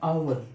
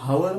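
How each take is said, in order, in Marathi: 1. शब्द थेट स्वराच्या आवाजाने सुरू होतो. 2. शब्द स्पष्ट h आवाजाने सुरू होतो. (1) "आवर मध्ये एच सायलेंट" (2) "हावर म्हणत नाही"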